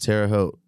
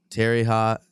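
First: The second word rhymes with oat. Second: The second word rhymes with hot. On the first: The speaker calls it right. "it's Terre Haute" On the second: The speaker calls it wrong. "So I've been calling it Terry Hot"

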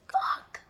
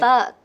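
First: The word is said in a casual, light way. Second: The word is said in a serious, heavy way. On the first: "I always go like" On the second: "I never say it like seriously"

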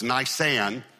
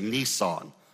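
First: It is pronounced unlike the car brand name. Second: It is pronounced like the car brand name. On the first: It names the month. The speaker calls it right. "So it's Nisan" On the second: It names a car, not the month. The speaker calls it wrong. "Most people say Nisan. That's a car you drive"

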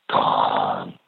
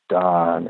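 First: It is said in a deep, menacing voice. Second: It is said in a normal voice.

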